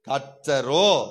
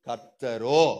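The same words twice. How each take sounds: First: The word is said with strong, forceful emphasis. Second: The word is said in a plain voice.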